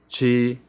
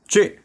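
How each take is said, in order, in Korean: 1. 소리를 약하게 터뜨려요. 숨이 적어요. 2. 소리를 세게 터뜨려요. 숨이 많아요. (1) "배에 힘이 빠지면" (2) "배에다가 잔뜩 숨을 먹고"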